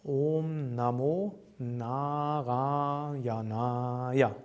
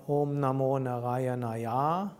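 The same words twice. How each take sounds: First: Om Namo Narayanaya slowly, with long O, Naa and Raa; correct vowel lengths. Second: Om Namo Narayanaya with short inner vowels and a long final Ya; mispronounced vowel lengths. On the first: Teacher giving the correction, slow long vowels in Om Namo Narayanaya. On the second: Teacher showing what not to say, short Nara and long end in Narayanaya. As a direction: rush Nara in Om Namo Narayanaya, stretch the last Ya. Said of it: "and not". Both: Shown as a demonstration.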